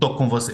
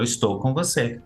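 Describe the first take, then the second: First: The first word is shortened to one syllable. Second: The first word is said in full, two syllables. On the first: "Eu não estou falando assim" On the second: "Eu falo todas as palavras"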